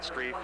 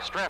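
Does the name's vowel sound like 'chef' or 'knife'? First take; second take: knife; chef. First: The vowel is long, as in 'knife'. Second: The vowel is short, as in 'chef'. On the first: The speaker calls it wrong. "not Streif" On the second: The speaker calls it right. "we pronounce it"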